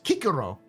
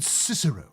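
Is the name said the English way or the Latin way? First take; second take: Latin; English. First: The name is said the Classical Latin way. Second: The name is said the usual English way. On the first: He sounds like a petulant little child. "when you pronounce it in actual Latin" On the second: He sounds regal and noble. "It sounds like very, you know, regal"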